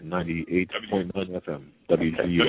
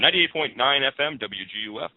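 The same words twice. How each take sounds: First: It is said in his normal speaking voice. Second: It is said in a put-on radio announcer voice.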